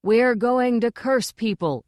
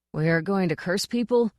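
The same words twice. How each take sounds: First: Higher, drawn-out group chant; slow, raised chorus shout. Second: Tentative, questioning answer; hesitant guess at the right line; ventured. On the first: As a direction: chant it out like obedient recruits. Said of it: "they chorused". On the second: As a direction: venture it, unsure. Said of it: "he ventured". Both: A narrator's reading.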